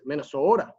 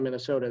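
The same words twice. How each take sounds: First: It is said in a drawn-out Minnesotan accent. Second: It is said in a plain general American accent. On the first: "They pronounce it Minnesota. That's how you say Minnesota" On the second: "they do not pronounce Minnesota Minnesota"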